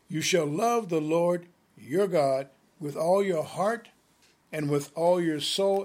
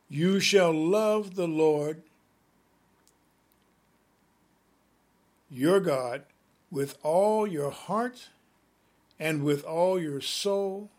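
First: It is read quickly. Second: It is read slowly.

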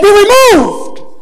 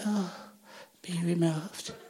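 First: It is said firmly, with authority. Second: It is said timidly, without authority.

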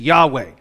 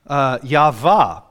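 First: The middle consonant is a W sound. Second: The middle consonant is a V sound.

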